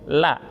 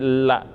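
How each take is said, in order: First: The l is light and thin. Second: The l is heavy and thick. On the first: The speaker calls it right. "Lidahnya yang paling ujung yang disentuhkan ke atas" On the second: The speaker calls it wrong. "Kalau disentuhin lidahnya agak banyak, maka bunyinya menjadi la, jadi tebal"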